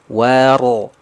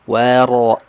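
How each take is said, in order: The two takes are said the same way.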